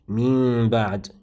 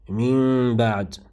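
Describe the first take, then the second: First: The n before b becomes a concealed m. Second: The n before b becomes a concealed m.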